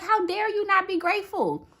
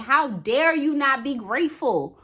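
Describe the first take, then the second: First: Higher, insistent scolding of herself; stern self-scolding. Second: Said in the usual way. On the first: Retold or imitated. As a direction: lecture yourself, pitch up and press the words. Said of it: "I was like". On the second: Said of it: "talking to myself and saying".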